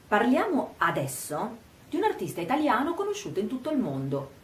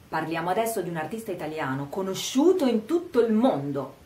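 First: Emphasis falls on 'parliamo adesso'; the rest is quicker, lower. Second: Emphasis falls on 'conosciuto in tutto il mondo'. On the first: The timing of the talk matters. "mettere l'accento sull'aspetto temporale, parliamo adesso" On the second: The artist is famous worldwide. "enfatizziamo il fatto che sia conosciuto in tutto il mondo"

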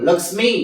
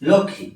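First: The m sound is pronounced. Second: The m sound is silent. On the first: This is the Sanskrit pronunciation. "সংস্কৃত হলে লক্ষ্মী হতো" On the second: This is the Bengali pronunciation. "লক্ষ্মী এটা বাংলা, সংস্কৃত নয়"

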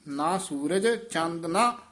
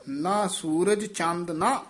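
Both takes have the same delivery.

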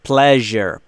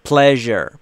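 No difference in how they are said.

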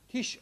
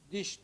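First: The word begins with a voiceless t sound. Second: The word begins with a voiced d sound. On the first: This is the Karluk and Kipchak form. "bütün Karluk ve Kıpçak lehçelerinde tiş olarak söyleniyor" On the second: This is the Oghuz (Turkish) form. "biz diş diyoruz"

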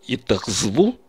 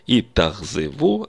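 First: No vowel is heard between z and v. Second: A short vowel is kept between z and v. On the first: The speaker calls it wrong. "попытаюсь сократить гласный звук, у меня получится три согласных звука подряд" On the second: The speaker calls it right. "гласный звук не сокращается"

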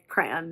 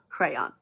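First: The word is said short and reduced. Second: The word is said fully, with every sound. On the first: "but I say crayon" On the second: "It just takes too long to say"

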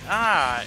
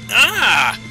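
First: It is said weakly, with little emphasis. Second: It is said forcefully, with strong emphasis.

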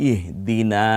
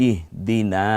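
Both takes have the same delivery.

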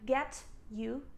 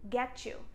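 First: The t and y are said separately. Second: The t and y blend into ch. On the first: The speaker calls it wrong. "I don't say" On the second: The speaker calls it right. "the T is pronounced like ch sound"

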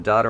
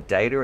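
First: The word is said with a non-American accent. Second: The word is said with an American accent.

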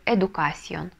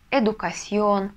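First: The stress is on the second-to-last syllable. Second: The stress is on the last syllable. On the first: The speaker calls it wrong. "А то мы прочитаем" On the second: The speaker calls it right. "мы тоже ставим ударение на последний слог"

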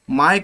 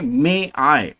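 First: The two words merge into one syllable. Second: The two words are said as separate syllables. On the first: The speaker calls it wrong. "बरेच विद्यार्थी माय come in sir अशा पद्धतीचा उच्चार करतात, हे bad impression आहे" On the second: The speaker calls it right. "योग्य रीतीने मे आय असा उच्चार करावा"

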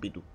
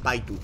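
First: The first vowel sounds like 'ee'. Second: The first vowel sounds like 'eye'. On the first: The speaker calls it right. "usan la pronunciación española, dicen Pitu" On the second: The speaker calls it wrong. "no dicen Paitu"

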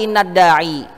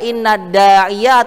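First: The final word ends with a long i. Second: The final word ends with a -ya sound. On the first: The speaker calls it wrong. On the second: The speaker calls it right.

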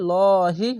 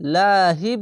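First: The l sound is heavy and thick. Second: The l sound is light and thin. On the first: The speaker calls it right. "লহি মোটা করে লহি হবে" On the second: The speaker calls it wrong. "লাহি বলবেন না কখনোই"

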